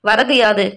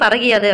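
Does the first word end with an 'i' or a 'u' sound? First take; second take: u; i. First: The two words are said apart, ending in 'u'. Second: The words run together quickly, with 'u' becoming 'i'.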